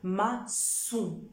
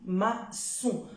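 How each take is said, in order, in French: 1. La consonne du milieu est un son « s ». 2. La consonne du milieu est un son « s ».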